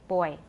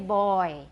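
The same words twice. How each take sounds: First: The first part of the vowel is short. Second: The first part of the vowel is drawn out. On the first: The speaker calls it right. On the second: The speaker calls it wrong.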